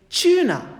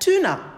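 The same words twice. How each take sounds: First: It is said with a British accent. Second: It is said with an American accent. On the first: "British pronunciation is tuna" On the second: "Americans pronounce it as tuna"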